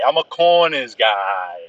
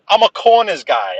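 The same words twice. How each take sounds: First: Said in the usual way. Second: Emphatic. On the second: Real, not acted. Says the same words twice.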